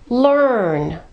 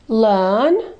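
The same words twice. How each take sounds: First: The R before the N is clearly pronounced. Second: The R before the N is silent.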